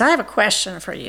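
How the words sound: It is said in a low, deep voice.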